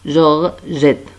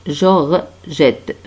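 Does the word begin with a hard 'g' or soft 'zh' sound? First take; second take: soft zh; soft zh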